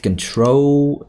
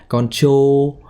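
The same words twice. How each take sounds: First: CONTROL with a clean tr cluster, drawn out; careful model of CONTROL, second syllable held long; correct pronunciation. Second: Drawn-out wrong CONTROL, both syllables heavy; mispronunciation demo. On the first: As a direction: say "control" correctly and slowly, kun-TROHL. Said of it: "it's correct pronunciation". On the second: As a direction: say "control" with a full first vowel and a ch sound. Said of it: "it's not control". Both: Shown as a demonstration.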